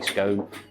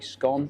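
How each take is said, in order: First: It is said the southern English way. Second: It is said the northern English way. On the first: "People in the south may say scone" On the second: "people in the north of England say scone"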